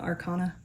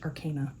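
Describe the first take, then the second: First: The middle vowel differs from the one in arcane. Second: The middle vowel sounds like the one in arcane. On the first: The speaker calls it wrong. "I prefer saying arcana" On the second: The speaker calls it right. "I'm trying to pronounce it correctly. So arcane knowledge"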